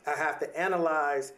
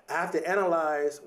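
Both takes have the same delivery.

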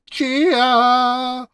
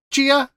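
First: Loud, high, goofy shout of the name; repeating louder and sillier. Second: Tentative rising guess; unsure question. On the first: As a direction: belt the name out on request, hamming it up. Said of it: "If you say it louder, we can hear it better". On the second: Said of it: "If you say it louder". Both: Shown as a demonstration.

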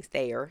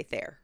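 First: THAYER as thay-er; two-syllable Thayer. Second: THAYER to rhyme with air; one-syllable Thayer. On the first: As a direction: split Thayer in two, like layer. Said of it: "I've been giving it two syllables". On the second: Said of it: "you've been giving it one". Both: Shown as a demonstration.

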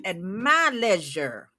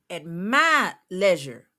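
First: Slow At MY leisure; stress on MY again. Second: MY leisure drawn out slowly; stress on MY. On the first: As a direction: lean on my in At my leisure. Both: Real, not acted.

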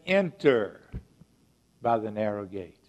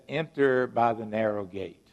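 First: Enter punched, pause, then by the narrow gate; emphatic. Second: Firm, declarative quote of Jesus; emphatic. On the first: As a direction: give the command weight. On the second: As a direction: state it as a command. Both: Shown as a demonstration. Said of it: "Very declarative statement, very emphatic statement".

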